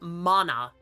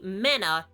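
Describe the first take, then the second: First: The first vowel is an open 'ah' sound. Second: The first vowel sounds like 'a' in 'man'. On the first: The speaker calls it right. "The ah adds so much" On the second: The speaker calls it wrong. "tell me mana is even half as cool sounding"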